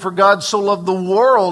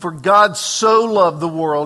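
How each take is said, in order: First: The stress falls on the word world. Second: The stress falls on the word so.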